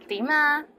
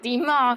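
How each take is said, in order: First: It is said in a nice, friendly tone. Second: It is said in an angry tone.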